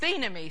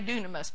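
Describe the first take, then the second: First: The word begins with a th sound. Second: The word begins with a d sound. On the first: The speaker calls it right. "It's thenemy, something like that" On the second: The speaker calls it wrong. "We always say dunamis, but it's not right"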